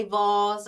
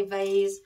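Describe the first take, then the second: First: Vase said "vahz", rhyming with cars; British pronunciation. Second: Vase said "vayz", rhyming with days; American pronunciation. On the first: Florist showing how we say it in Britain, vase as "vahz". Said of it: "we say vase". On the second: Florist showing how the States say it, vase as "vayz". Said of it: "in the States you say vase". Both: Shown as a demonstration.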